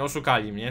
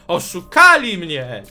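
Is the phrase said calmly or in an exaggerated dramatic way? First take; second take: calm; dramatic. First: It is said in a plain, calm voice. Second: It is said in an exaggerated, dramatic voice. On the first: "Nie mogę powiedzieć normalnie" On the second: "Muszę jak cygan to powiedzieć po prostu"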